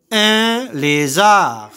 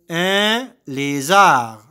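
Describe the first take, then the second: First: "Un lézard" stretched slowly and a little higher; slow model word. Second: "Un lézard" slow, at an even level; slow repeat. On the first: Teacher modelling "Un lézard" slowly for pupils. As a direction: draw out "Un lézard" for the class. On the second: Teacher repeating "Un lézard" slowly for pupils. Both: Shown as a demonstration. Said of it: "Je répète".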